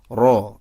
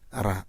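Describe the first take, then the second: First: The r sound is heavy and thick. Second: The r sound is thin and light. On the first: The speaker calls it right. "ketika ro fathah itu tafkhim alias tebal" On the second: The speaker calls it wrong. "bukan ra"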